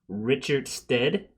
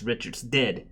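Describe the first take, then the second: First: The name is said slowly as two separate words. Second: The name is said fast, run together. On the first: It is just a person's name. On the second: It announces that the man has died.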